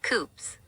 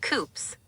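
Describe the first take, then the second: First: "coops" with a short, clipped oo, like chicken coops; the wrong word. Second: "coupes" as "koops" with a long oo, the proper way; "coupes" said carefully as "koops"; said right. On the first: Co-host shows Rocky's mix-up, says it wrong. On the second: AI co-host correcting Rocky's word, says it right. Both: Shown as a demonstration. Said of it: "not coops".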